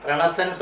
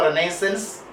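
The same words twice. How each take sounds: First: "Renaissance" as REN-uh-sunce, weak middle vowel; "Renaissance" said ren-uh-sənce; first pronunciation variant. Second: "Renaissance" as reh-NAY-sence, full middle vowel; second pronunciation variant. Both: Shown as a demonstration. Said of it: "it is pronounced as Renaissance and Renaissance".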